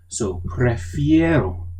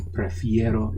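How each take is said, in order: First: Prefiero said slowly, leaning hard on the fie syllable; slow, stressed prefiero for the class. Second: Said in the usual way. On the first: Shown as a demonstration. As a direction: drag out prefiero and punch the fie. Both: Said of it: "prefiero is I prefer".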